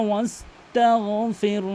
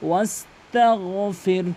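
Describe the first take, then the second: No difference in how they are said.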